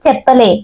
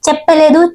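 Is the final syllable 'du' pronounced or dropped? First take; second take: dropped; pronounced. First: The final syllable 'du' is dropped entirely. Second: The final syllable 'du' is pronounced fully. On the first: This is the colloquial spoken form. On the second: This is the standard form.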